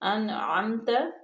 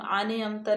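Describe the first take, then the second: First: No vowel follows the n sound. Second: An extra vowel follows the n sound. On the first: The speaker calls it right. "बल्कि अन आमता" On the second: The speaker calls it wrong. "इसको हम आने अमता नहीं पढ़ेंगे"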